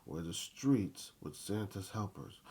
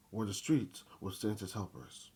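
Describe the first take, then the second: No difference in how they are said.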